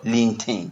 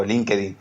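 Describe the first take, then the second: First: LinkedIn said the English way, in two syllables; English pronunciation. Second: LinkedIn said Spanish-style as "lin-ke-DIN"; Hispanicized pronunciation. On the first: Guest showing the host how he doesn't say it, LinkedIn pronounced English-style. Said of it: "Recuerda que yo no sé, eh, hablar bien el inglés. Yo no digo LinkedIn". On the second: Guest showing his own homely way, LinkedIn pronounced Spanish-style. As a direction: sound out all three syllables of LinkedIn, Spanish vowels. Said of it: "yo digo LinkedIn". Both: Shown as a demonstration.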